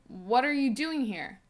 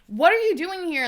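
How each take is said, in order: First: It is said in a drowsy, calm voice. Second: It is said in an alarmed, urgent voice.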